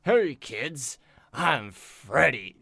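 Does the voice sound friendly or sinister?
sinister. It sounds dark and sinister.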